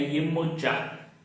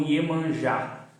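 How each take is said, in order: First: The name is said in its original Yoruba form. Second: The name is said in its common Brazilian form. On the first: This is the original pronunciation of the name. The speaker calls it right. "a pronúncia correta do seu nome é" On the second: This is how the name is known in Brazil. The speaker calls it wrong. "aqui no Brasil é conhecida como"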